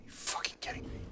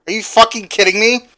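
First: Unvoiced, stunned whisper; whispered disbelief. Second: Higher and louder, incredulous; real outburst at the news; outraged disbelief. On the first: Player repeats in disbelief at the grind, whispering. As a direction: breathe it out in shock. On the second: Player hears he must farm fifty, outraged and loud. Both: Real, not acted.

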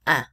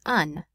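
First: "un" with a nasal vowel and silent N; nasalized vowel. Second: "un" with the final N wrongly sounded; final N pronounced. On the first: Teacher showing students the French article, "un" nasalized without N. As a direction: say "un" through the nose, dropping the N. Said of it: "make the vowel sound before them nasalized". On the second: Teacher showing students what to avoid, "un" with sounded N. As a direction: say "un" ending on a full N consonant. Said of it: "instead of saying un". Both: Shown as a demonstration.

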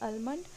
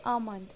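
First: Almond with the L sounded; wrong pronunciation. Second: Almond with no L, "aa-mund"; silent L. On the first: Teacher rejecting a common mistake, almond with spoken L. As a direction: say almond as "ul-mund", L audible. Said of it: "but it is not almond". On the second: Teacher giving the correct word, almond with silent L. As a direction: drop the L in almond. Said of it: "इसमें हम L silent रखेंगे". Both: Shown as a demonstration.

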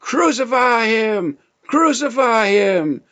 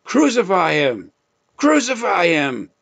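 First: Loud, much higher, slowed shout; frenzied crowd shout. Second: Raised, higher voice for the crowd's demand; crowd crying out. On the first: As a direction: scream it like a mob baying for blood. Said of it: "the leadership cried out". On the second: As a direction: call it out like the crowd, but held back. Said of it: "they cried out". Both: Retold or imitated.

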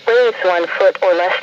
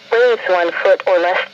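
The two takes are said the same way.

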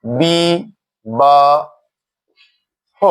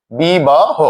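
First: বি, বা, হ with long pauses between, হ as "ho"; separated "bi... ba... ho" for learners; syllable by syllable. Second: বি বা হ run together as "bi-ba-ho"; measured বি বা হ with only slight syllable breaks; joined-up demo. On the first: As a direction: spell out বি... বা... হ one syllable at a time. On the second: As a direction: say বি বা হ in one careful go, ending on "ho". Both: Shown as a demonstration. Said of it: "ও রূপে উচ্চারণ হবে".

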